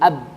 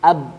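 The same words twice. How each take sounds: First: The b is single and closes the syllable. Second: The same.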